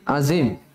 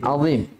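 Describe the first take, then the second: First: The z sound is light and plain. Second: The z sound is heavy and emphatic. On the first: The speaker calls it wrong. "Jangan subhana rabbiyal azim" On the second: The speaker calls it right. "Subhana rabbiyal azim"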